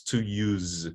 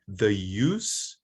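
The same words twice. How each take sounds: First: "to use" drawn out, ending in z; voiced verb ending. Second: "the use" drawn out, ending in s; voiceless noun ending. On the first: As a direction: say verb "use" slowly with a buzzed z. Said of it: "it's voiced". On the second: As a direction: say noun "use" slowly with a hissed s. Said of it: "it's voiceless". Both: Shown as a demonstration.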